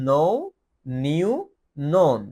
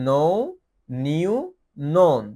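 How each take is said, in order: No difference in how they are said.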